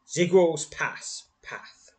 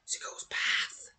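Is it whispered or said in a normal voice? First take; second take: normal; whispered. First: It is said in a normal voice. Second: It is said in a whisper.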